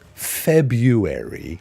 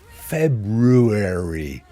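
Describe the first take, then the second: First: The first R sound is left out. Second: The first R sound is clearly pronounced. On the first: "like dropping the R" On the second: "Or do you pronounce the R?"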